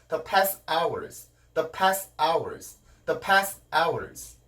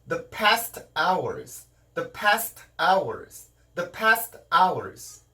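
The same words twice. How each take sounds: First: The T in past is dropped. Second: The T in past is pronounced and linked. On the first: The speaker calls it wrong. "죽은 경우는" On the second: The speaker calls it right. "이렇게 하면 살아난 경우고요"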